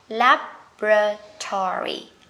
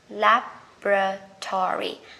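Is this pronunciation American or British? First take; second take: American; American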